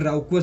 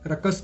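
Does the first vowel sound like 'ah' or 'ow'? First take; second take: ow; ah. First: The first vowel is an 'ow' sound. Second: The first vowel is a short 'ah' sound. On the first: "राउकस भी आप बोल सकते हैं" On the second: "रकस के रूप में pronounce होता है"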